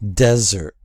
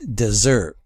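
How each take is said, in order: First: The stress is on the first syllable. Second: The stress is on the second syllable. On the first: "the stress is on the first syllable" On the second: "See the double S, and then that shifts the stress to the um, last syllables"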